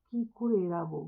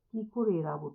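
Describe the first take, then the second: No difference in how they are said.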